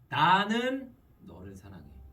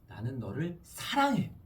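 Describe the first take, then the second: First: The stress is on 나는. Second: The stress is on 사랑해.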